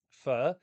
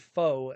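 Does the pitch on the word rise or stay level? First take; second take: rise; level. First: The pitch rises like a question. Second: The pitch stays level without rising. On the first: "You have to say it like a question mark" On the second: "as some people pronounce it"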